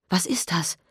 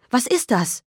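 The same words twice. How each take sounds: First: Quieter, frightened first ask; hushed alarm; horrified question. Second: Higher, panicked repeat; rising alarm, pitched up; horrified question. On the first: Mother asking the officer, hushed alarm. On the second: Mother asking the officer again, panicked and higher. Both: Acted. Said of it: "fragte entsetzt".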